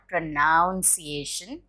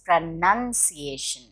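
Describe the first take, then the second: First: The second syllable sounds like noun. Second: The second syllable sounds like nun. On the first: The speaker calls it wrong. "it's not pronunciation" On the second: The speaker calls it right. "None, like the nun"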